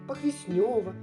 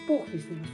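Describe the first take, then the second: First: The stress falls on a later syllable. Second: The stress falls on the first syllable. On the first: The speaker calls it wrong. "Как только не говорят" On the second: The speaker calls it right. "правильно надо говорить Похвеснево с ударением на первый слог"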